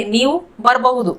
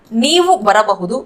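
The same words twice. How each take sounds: First: ಬರಬಹುದು contracted to "barbahudu"; local colloquial pronunciation. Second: Said in the usual way. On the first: Shown as a demonstration. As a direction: drop the middle a in ಬರಬಹುದು. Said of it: "local accent में बोलेंगे". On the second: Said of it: "इसको हम local accent में बोलेंगे".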